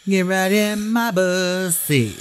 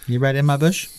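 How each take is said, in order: First: "bussy" drawn out slowly and higher. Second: Said in the usual way. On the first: Shown as a demonstration. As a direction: stretch "my bussy" slow and raised.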